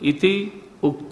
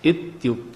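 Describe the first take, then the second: First: The two words are said separately. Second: The two words merge into one word. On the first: "संधि मालूम हो तो आप ऐसे भी बोल सकते हो" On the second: "मिला के भी बोल सकते हैं"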